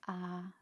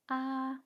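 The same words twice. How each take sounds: First: The level pitch is very low. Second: The level pitch is very high. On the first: "very low" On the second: "very high"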